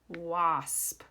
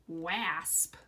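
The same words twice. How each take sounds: First: The vowel is not pronounced with the A sound. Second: The vowel is pronounced with the A sound. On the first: The speaker calls it right. "We say it wasp" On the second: The speaker calls it wrong. "if we pronounce the A with the A sound"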